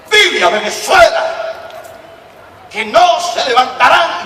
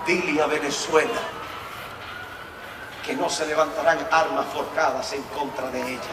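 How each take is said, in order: First: Louder, higher, slow scolding repeat; scolding, strong. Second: Soft, quiet, unhurried words from God; calm divine voice. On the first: God repeats the message to the distracted preacher, scolding loudly. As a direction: repeat it like a stern rebuke. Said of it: "el Señor me habló fuerte". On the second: Preacher recalls God's first quiet message to him, softly. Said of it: "sin desviarme de lo que quiero decir". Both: Retold or imitated.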